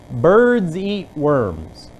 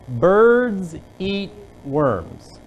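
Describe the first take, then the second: First: The sentence is said at a normal, quicker pace. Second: The sentence is said at a slower pace.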